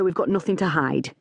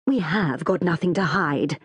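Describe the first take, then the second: First: Said in the usual way. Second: "have" leaned on, mildly exasperated correction. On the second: A narrator's reading. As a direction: stress "have" in full, exasperated. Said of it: "sounding exasperated".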